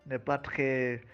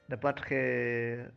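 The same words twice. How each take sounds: The two takes are said the same way.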